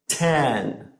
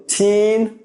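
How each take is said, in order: First: "ten" lower and softer, mouth open; short E contrast. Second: Put-on "Teen" higher, with lips spread wide; long E contrast. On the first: Teacher contrasts "ten" with "Teen" for students, short E. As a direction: drop the jaw for a short E in "ten". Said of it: "feel your mouth open as your tongue drops". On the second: Teacher contrasts "Teen" with "ten" for students, long E. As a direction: smile through a long E in "Teen". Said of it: "feel your mouth open". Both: Shown as a demonstration.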